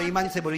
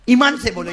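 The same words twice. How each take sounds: First: Said in the usual way. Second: ईमान से बोलो called out louder; firm call to the congregation. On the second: Shown as a demonstration. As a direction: push ईमान से बोलो out to the crowd. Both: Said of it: "हाँ, जोर से बोला".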